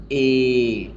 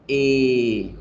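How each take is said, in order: The two takes are said the same way.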